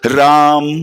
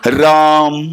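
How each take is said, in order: First: The word ends with the lips kept closed. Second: The word ends with the lips kept closed.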